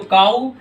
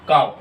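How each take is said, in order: First: The word ends in an open 'oo' vowel. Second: The word ends in a 'v' sound. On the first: The speaker calls it wrong. "इसको आज के बाद काऊ नहीं पढ़ना student" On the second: The speaker calls it right. "तो इसको आप पढ़ोगे काव"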